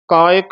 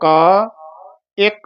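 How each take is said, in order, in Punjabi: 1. ਦੋਵੇਂ ਸ਼ਬਦ ਇੱਕ ਵਾਂਗ ਜੁੜੇ ਹੋਏ ਹਨ। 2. ਸ਼ਬਦਾਂ ਵਿਚਕਾਰ ਇੱਕ ਛੋਟਾ ਜਿਹਾ ਵਿਰਾਮ ਹੈ। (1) "ਕਾਇਕ ਨਹੀਂ ਕਹਿਣਾ ਹੈ" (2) "ਇੱਥੇ ਠਮਕ ਲਾ ਦੋ"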